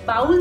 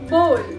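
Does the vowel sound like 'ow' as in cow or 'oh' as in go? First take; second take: ow; oh. First: The vowel sounds like ow in cow. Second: The vowel sounds like oh in go. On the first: The speaker calls it wrong. "But ये बाउल नहीं होता" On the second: The speaker calls it right. "इसे हम simply कहेंगे बोल बोल बोल"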